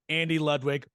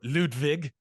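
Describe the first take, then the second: First: The name is said the ordinary English way. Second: The name is said the original, foreign-sounding way.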